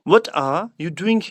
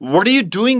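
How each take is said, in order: First: A British accent, with the r sound dropped. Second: An American accent, with the r sound pronounced. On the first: "British में आप बोलोगे तो आप बोलोगे" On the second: "American accent में"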